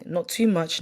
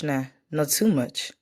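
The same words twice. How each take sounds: First: Said in the usual way. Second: "not too much" slowed down and stretched, leaning on "too"; slowed emphasis. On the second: Real, not acted. She insists to her friend that she drinks only a little, stretching it slowly.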